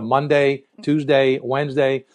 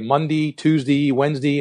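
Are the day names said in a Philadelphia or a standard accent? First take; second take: standard; Philadelphia. First: The vowels follow a standard American accent. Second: The vowels follow a Philadelphia accent. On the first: "instead of" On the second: "We say"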